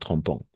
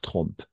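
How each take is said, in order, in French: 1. La terminaison finale se prononce comme une voyelle nasale. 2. La terminaison finale est muette, elle ne se prononce pas. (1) "pas trompant" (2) "Comme ENT à la fin, on ne prononce pas"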